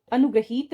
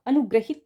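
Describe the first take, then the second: First: अनुग्रहित with long ee; wrong pronunciation. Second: अनुग्रहित with short i; correct pronunciation. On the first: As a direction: say अनुग्रहित as anu-gra-heet. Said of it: "अनुग्रहित नहीं होगा". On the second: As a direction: say अनुग्रहित as anu-gra-hit. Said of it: "अनुग्रहित होगा". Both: Shown as a demonstration.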